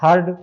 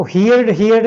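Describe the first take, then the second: First: हर्ड said as "hurd", one short syllable; correct pronunciation. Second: हियर्ड said as "hee-yard", with an extra vowel glide; wrong pronunciation. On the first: Teacher giving students the right form, correct pronunciation. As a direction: say हर्ड with a single vowel, no "ee" glide. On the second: Teacher showing students how not to say it, wrong pronunciation. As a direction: mispronounce it as हियर्ड, regular ending tacked onto "hear". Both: Shown as a demonstration. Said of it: "हियर्ड नहीं बोलेंगे".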